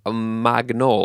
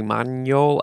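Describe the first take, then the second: First: "Magnol" with a sounded g, mag-NOHL; anglicized pronunciation. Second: "Magnol" with a French gn, mahn-YOHL; attempted French pronunciation. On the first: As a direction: say "Magnol" with g and n separate. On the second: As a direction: say "Magnol" as man-YOL. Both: Shown as a demonstration. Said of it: "I don't know that French pronunciation".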